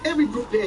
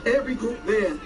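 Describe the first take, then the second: First: The phrase is said at normal speed. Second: The phrase is said slowly and deliberately.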